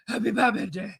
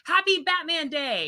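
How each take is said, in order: First: It is said in a gravelly Batman voice. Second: It is said in her normal voice.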